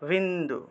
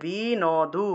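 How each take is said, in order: First: The n is joined to the first syllable. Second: Each letter is sounded separately, n starting a syllable. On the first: "এই নটা আগের অংশের সাথে উচ্চারণ হবে" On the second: "আলাদা আলাদা উচ্চারণ করলাম"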